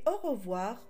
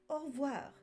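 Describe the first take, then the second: First: The e is pronounced, giving three syllables. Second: The e is dropped, giving two syllables. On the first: This is how southern speakers say it. "dans le sud, le E est prononcé. Et au revoir aura bien trois syllabes" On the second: This is how northern speakers say it. "Dans la moitié nord de la France, vous l'entendrez certainement prononcer au revoir, car la tendance est à la contraction des mots"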